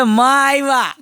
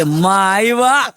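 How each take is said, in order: First: માં આવ્યા higher and brighter, eager; excited announcement. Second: Stretched out slowly, in awe; slow reverent welcome. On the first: Husband tells his wife mother has come, excited. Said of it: "એ કે". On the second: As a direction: say માં આવ્યા slowly, as if greeting a holy guest. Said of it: "ભાઈને એમ કે". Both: Retold or imitated.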